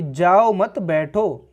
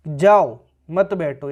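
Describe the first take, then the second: First: जाओ मत run together, then बैठो; slowly group जाओ with मत, set बैठो apart; drawn-out जाओ मत, separate बैठो; pause after मत. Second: जाओ alone, then मत बैठो together; stand-alone जाओ, pause before मत बैठो; pause after जाओ. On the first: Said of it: "अभी मत जाओ, बैठ जाओ". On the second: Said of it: "बिल्कुल मत बैठो, अभी निकल जाओ". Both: Shown as a demonstration.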